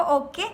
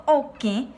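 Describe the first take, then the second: First: Said in the usual way. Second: "oke" ending in a nasal E; "oke" with its "e" nasalised; nasal final E. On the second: Shown as a demonstration. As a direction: send the last vowel of "oke" through the nose. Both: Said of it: "cuando una letra tiene acento nasal".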